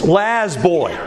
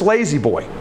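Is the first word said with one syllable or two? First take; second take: One; Two. First: The first word is said as one syllable. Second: The first word is said as two syllables. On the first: It is read the way it looked on the sign. "she just pronounced it the way she thought it" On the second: It is the real name of the brand. "It's Lazy Boy"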